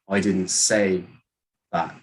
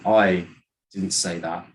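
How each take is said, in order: First: The word say carries the main stress. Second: The word I carries the main stress. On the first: It was implied but not said. "maybe you did something else to mean it. You just didn't say it" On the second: Someone else said it. "then you're saying that someone else did"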